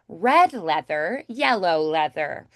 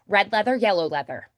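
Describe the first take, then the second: First: It is said slowly with lively, varied pitch. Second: It is said quickly with flatter, monotone pitch. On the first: "When it's slow, I have more pitch variation. I also stress more often" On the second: "When I get faster, it gets a little bit more monotone"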